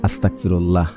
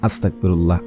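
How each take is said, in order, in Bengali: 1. শব্দটি অযত্নে উচ্চারণ করা হয়েছে, ধ্বনি বদলে গেছে। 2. শব্দটি অযত্নে উচ্চারণ করা হয়েছে, ধ্বনি বদলে গেছে।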